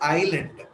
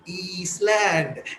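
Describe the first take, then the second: First: The s is silent, like eye land. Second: The s is sounded, like east land. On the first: The speaker calls it right. "It is called as island" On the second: The speaker calls it wrong. "the word how she reads this is I S East L A N D land"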